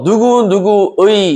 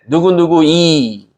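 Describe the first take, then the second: First: The final vowel is the diphthong 'ui'. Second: The final vowel is a plain 'i'. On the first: The speaker calls it right. "이렇게 얘기해야 되는데" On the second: The speaker calls it wrong. "경상도 사람들이 발음하지 못하는 단어"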